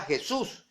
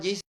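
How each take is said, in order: First: "Jesús" as heh-SOOS, rising final syllable; Spanish mispronunciation. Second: "Jesus" as JEE-sa; English-style "Jesus", stressed on JEE; English pronunciation. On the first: Preacher naming what Adventists found, "Jesús" as heh-SOOS. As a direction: say "Jesús" with Spanish h, stress last. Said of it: "una mala pronunciación en Latinoamérica". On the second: Preacher telling how Adventists pronounced it, "Jesus" as JEE-sa. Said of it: "que allá pronunciaban Jesus". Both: Shown as a demonstration.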